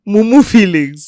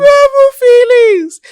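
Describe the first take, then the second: First: Laughing. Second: "Mumu feelings" much higher and louder, slow, mocking; mock the phrase "Mumu feelings" with a high, loud, stretched delivery; drawn out mock emphasis. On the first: Laughing repeat. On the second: Friend mocks surgeon's crush, repeating "Mumu feelings" high and stretched. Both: Real, not acted.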